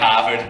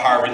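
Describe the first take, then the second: First: It is said in a Boston accent. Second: It is said in a general American accent.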